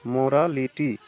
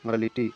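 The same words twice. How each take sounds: First: मोरालिटी broken into four distinct syllables. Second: Said in the usual way. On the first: Shown as a demonstration. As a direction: give every syllable of मोरालिटी its own beat. (मोरालिटी को चार हिस्सों में तोड़कर बोलें) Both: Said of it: "जैसे ही इसका उच्चारण कीजिएगा".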